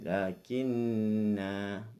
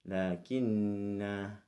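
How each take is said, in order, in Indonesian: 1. Vokal akhirnya dibaca panjang. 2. Vokal akhirnya dibaca panjang.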